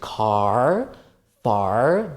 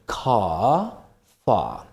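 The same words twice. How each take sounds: First: The R is pronounced, American style. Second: The R is dropped, British style.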